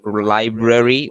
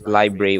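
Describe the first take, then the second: First: The middle syllables are fully and clearly pronounced. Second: The middle syllables are reduced and barely heard. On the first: "where the A R I is sharply pronounced in uh, the U S" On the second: "in the U K it's library, where it is quite a bit negligible"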